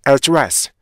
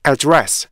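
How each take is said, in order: Both takes have the same delivery.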